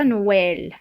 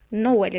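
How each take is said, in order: First: "Noël" drawn out with the wrong vowel; stretched counterexample of "Noël"; wrong pronunciation. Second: "Noël" with an open è before the l; teacher's correct take of "Noël"; correct pronunciation. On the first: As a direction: show slowly how "Noël" should not sound. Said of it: "et pas Noël". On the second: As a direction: model "Noël" as no-EL. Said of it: "Noël et pas Noël". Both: Shown as a demonstration.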